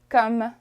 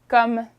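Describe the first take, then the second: The two takes are said the same way.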